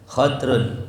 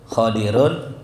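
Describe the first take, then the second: First: First vowel a, no vowel after the d. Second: First vowel a, vowel i after the d. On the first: "Boleh juga disukunin dotnya khadrun" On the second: "dibaca dengan fathah yang mu'jam"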